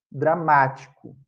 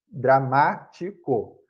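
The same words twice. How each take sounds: First: Said in the usual way. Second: "dramático" slowly in pieces, dra-MÁ-ti-co; teacher splitting "dramático" into slow syllables, stressed MÁ; stress on antepenultimate syllable. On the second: Shown as a demonstration. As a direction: sound out "dramático", leaning on "má". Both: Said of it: "a sílaba tônica é a antepenúltima".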